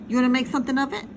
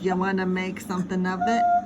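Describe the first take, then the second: First: It is read in an ordinary voice. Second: It is read in a put-on tough-guy voice.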